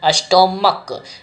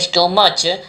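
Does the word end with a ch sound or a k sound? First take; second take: k; ch. First: The final consonant is pronounced k. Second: The final consonant is pronounced ch. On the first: The speaker calls it right. "यहाँ पर स्टोमक पढ़ेंगे" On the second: The speaker calls it wrong. "ना कि स्टोमच"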